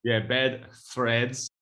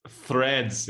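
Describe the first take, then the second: First: "bed threads" drawn out slowly, Irish T for TH; slow Irish repeat. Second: "threads" said slowly with a clear TH sound; careful TH. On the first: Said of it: "Are you saying threads as in T H". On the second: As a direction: demonstrate "threads" with the TH. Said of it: "T, T H". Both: Shown as a demonstration.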